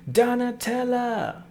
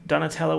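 First: High, drawn-out cry of the name; slow, high, theatrical call; excited fan cry. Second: Said in the usual way. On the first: Acted. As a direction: sing out the name in a high put-on voice. Calls out the name admiringly.

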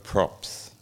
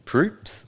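First: "Props" with a short o, like "tops"; short o pronunciation. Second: "Proops" with a long oo, as in "hoops"; long oo pronunciation. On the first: Host offering the other surname reading, "Props" with short o. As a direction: say "Props" with the open vowel of "drops". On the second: Host checking a comedian's surname, "Proops" with long oo. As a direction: say "Proops" with a drawn-out oo vowel. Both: Shown as a demonstration. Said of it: "is it Greg Poop, Proops or Greg Props".

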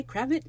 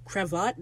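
First: "cravat" rhyming with "have it"; alternate pronunciation. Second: "cravat" stressed on the second syllable; alternate pronunciation. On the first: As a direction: say "cravat" as CRAV-it. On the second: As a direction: say "cravat" as cra-VAHT. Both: Shown as a demonstration. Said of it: "by the way, cravat".

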